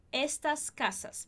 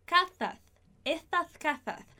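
First: Said in the usual way. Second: Estas casas with every s said as th, slowly; ceceo lisp. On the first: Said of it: "ao invés de dizer estas casas". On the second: Shown as a demonstration. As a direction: say estas casas as etaθ kaθa, tongue between the teeth. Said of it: "algumas pessoas poderiam dizer estas".

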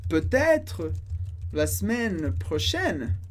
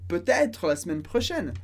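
First: Slow French, broken into parts; slow model phrase. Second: Said in the usual way. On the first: Shown as a demonstration. Teacher models the dialogue's last line, slowly in parts. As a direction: space it out carefully for learners.

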